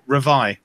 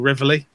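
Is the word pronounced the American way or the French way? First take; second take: French; American. First: The word is said with a French pronunciation. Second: The word is said with an American pronunciation. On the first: The speaker calls it right. "Or Reveille, because it's French" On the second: The speaker calls it wrong. "What the Americans call Reveille, even though it's nowhere near the pronunciation"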